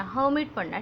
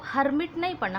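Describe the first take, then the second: First: हर्मिट said without the r, like "hamit"; right way, silent r. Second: हर्मिट with the r said, as written; wrong way, r sounded. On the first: Teacher gives pupils the right हर्मिट, silent r. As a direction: drop the r in हर्मिट. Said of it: "This is silent". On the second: Teacher shows the wrong हर्मिट to her pupils. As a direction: says हर्मिट with a clear r, the wrong way. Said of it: "ये ह यहाँ पे आर आ रहा है". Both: Shown as a demonstration.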